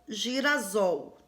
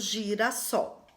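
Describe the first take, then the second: First: The middle consonant is a buzzing Z sound. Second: The middle consonant is a hissing S sound.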